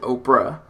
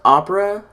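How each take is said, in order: First: The word is said with two syllables. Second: The word is said with three syllables. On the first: The speaker calls it wrong. "I keep wanting to pronounce it Oprah" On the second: The speaker calls it right. "I know it's pronounced opera"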